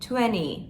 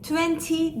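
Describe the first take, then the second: First: The t after the n is dropped. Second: The t after the n is clearly pronounced. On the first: The speaker calls it right. "T'den hiç haber yok" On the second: The speaker calls it wrong. "Twenty demiyoruz"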